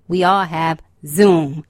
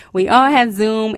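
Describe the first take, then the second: First: Said in the usual way. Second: Emphatic. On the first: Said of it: "repeated for effect". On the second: Shown as a demonstration. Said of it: "repeated louder".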